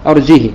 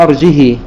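First: "أرجه" without hamza, short final i; short kasra on ha. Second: "أرجه" without hamza, long final ii; kasra with silah. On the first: Teacher demonstrating Qalun's reading, "أرجه" with short unlinked i. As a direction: say "أرجه" as arjihi, last vowel short. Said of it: "بكسر الهاء بدون صلة". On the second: Teacher demonstrating Warsh's reading, "أرجه" with lengthened final i. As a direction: say "أرجه" as arjihii, drawing out the last vowel. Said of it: "كسر الهاء". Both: Shown as a demonstration.

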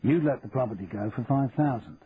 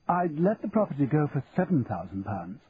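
First: Said in the usual way. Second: Auctioneer's voice pitched up, haggling; the auctioneer naming his price; lightly voiced fussy auctioneer; Fothergill bargaining. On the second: A narrator's reading.

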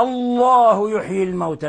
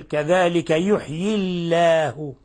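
First: الله with a heavy, full lam, a little higher; heavy Allah. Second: الله with a thin, light lam, said slowly; light Allah. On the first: Teacher showing students the starting reading, with a full heavy lam. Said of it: "يعني لو قلنا". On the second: Teacher showing students the joined reading, in slow recitation. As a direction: read الله thin after the kasra. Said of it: "نرقق". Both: Shown as a demonstration.

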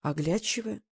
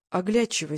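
First: Puzzled echo of оглядчивое as a question; softly puzzled query on оглядчивое; surprised. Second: Said in the usual way. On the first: A narrator's reading. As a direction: repeat оглядчивое back, mildly surprised and questioning. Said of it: "удивительно переспросила она".

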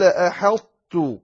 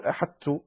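First: "أحطت" slow, the ṭāʾ merged into tāʾ but kept heavy; "أحطت" with a full, emphatic ṭāʾ sound. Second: "أحطت" softer, the ṭāʾ lost into a plain light t; the wrong "أحطت", the heavy sound dropped; "أحطت" said thin and light, the mistake. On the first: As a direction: say "أحطت" with the ṭāʾ's heaviness held over the t. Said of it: "قال، فقال". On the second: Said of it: "لا تقل". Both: Shown as a demonstration.

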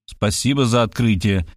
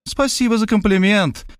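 First: Lower, dry sarcastic thanks. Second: Gracious, smiling thanks; kindly smiling. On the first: Writer sarcastically thanking the detective for her insight. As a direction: needle her with mock gratitude. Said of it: "съязвил я". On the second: Detective woman thanking the writer with a gracious smile. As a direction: thank him sweetly, with a smile. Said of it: "любезно улыбнулась она". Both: Acted.

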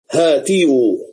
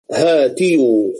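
First: Said in the usual way. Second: هاتيو said slowly, every sound spelled out: ha-ti-yu; drawn-out original form. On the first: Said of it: "فهاتوا أصلها". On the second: Shown as a demonstration. Teacher showing students the root form, slow and deliberate. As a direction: stretch هاتيو out so students hear the ya before the waw. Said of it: "أصل هاتوا أصلها".

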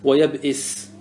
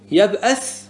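First: ويبئس with an i vowel on the hamza; kasra form. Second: يبأس with an a vowel on the hamza; fatha form. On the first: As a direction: say ويبئس as "wa-yab'is", with i after the glottal stop. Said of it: "بالفتح وبالكسر". (ويبئس بكسر الهمزة) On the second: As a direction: say يبأس as "yab'as", with a after the glottal stop. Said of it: "هذا بالفتح". (يبأس بفتح الهمزة) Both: Shown as a demonstration.

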